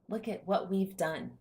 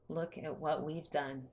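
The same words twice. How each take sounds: First: It sounds proud and delighted. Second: It sounds let down and disappointed.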